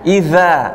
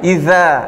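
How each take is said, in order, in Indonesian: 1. Konsonan di tengah adalah bunyi th yang lembut. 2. Konsonan di tengah adalah bunyi th yang lembut.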